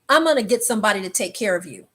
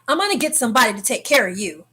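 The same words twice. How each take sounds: First: It is said gently, without much force. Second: It is said with more force and emphasis. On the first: "that's exactly how he said it" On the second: "with a little more force"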